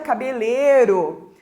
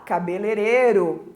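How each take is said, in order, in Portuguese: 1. Uma sílaba inteira do meio é deixada de fora. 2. Um som 'ei' no meio é reduzido. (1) "Ou ainda cabeleiro" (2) "E a pessoa fala cabeleireiro"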